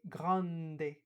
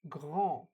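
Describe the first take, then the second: First: The N is sounded as a separate consonant. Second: The vowel is nasal with no separate N. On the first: The speaker calls it wrong. "we do not pronounce the letters separately. So we do not say grande" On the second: The speaker calls it right. "We have to say grand"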